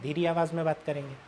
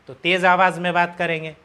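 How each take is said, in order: First: It is said in a quiet voice. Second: It is said in a loud voice.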